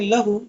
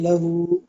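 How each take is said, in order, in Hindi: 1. आख़िरी स्वर छोटा रखा जाता है। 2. आख़िरी स्वर लंबा खींचा जाता है।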